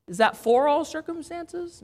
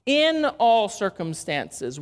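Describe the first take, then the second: First: "for" said as the mistaken word, questioning rise on "Is that for all circumstances?"; stress on wrong preposition. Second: "in" hit firmly and slowly as the right word; stress on IN. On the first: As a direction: ask it as if checking the wrong word "for". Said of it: "No, in all circumstances". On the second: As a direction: correct it by leaning on "in". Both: Shown as a demonstration.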